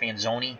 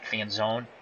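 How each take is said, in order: First: The name ends with a final ee vowel. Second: The name ends without a final vowel sound. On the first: This is the original Italian pronunciation. "it's probably really true Italian, pr- pronounced Fanzoni" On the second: This is how the player himself says it. "they probably pronounce it Fanzone"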